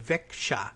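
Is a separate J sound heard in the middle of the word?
yes. A separate J sound is heard mid-word. "in northern Sweden they might say Växjö and put a sound in there for the J"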